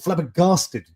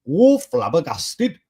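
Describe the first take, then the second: First: It is said without a Welsh accent. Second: It is said in a Welsh accent.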